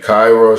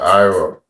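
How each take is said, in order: First: The word begins with a clear k sound. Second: The word begins without any k sound. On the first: The speaker calls it right. "Instead of saying Cairo" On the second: The speaker calls it wrong. "she'll say like Iro"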